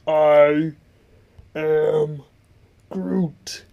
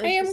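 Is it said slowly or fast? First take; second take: slowly; fast. First: It is said slowly. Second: It is said fast.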